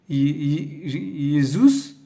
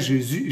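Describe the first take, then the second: First: The name is pronounced the Latin way. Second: The name is pronounced the French way. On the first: "en latin" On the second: "en français"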